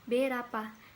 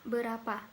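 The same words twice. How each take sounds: First: The first vowel is a clear e. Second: The first vowel is a weak schwa. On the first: This is how Batak speakers pronounce it. "dalam bahasa Batak, berapa dibaca dengan berapa. Berapa diucapkan seperti mengucap kata merah, menggunakan e" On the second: This is the standard Indonesian pronunciation. "di Indonesia ada kata berapa"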